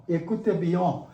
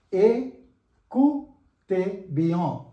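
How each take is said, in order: First: Écoutez bien run together as one phrase; joined-up pronunciation. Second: Écoutez bien broken into separate syllables, ay-koo-tay byon; acute-accent pronunciation. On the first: Teacher repeats for learners, Écoutez bien joined up. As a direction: say Écoutez bien smoothly, without breaks. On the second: Teacher models for learners, Écoutez syllable by syllable. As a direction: spell out Écoutez bien beat by beat. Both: Shown as a demonstration. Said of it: "it is pronounced as A".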